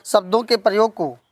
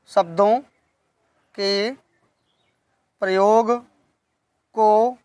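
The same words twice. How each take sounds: First: Said in the usual way. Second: Each word drawn out and set apart; dictation pace. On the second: Shown as a demonstration. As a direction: dictate it word by word for note-takers. (एक-एक शब्द रुक-रुक कर)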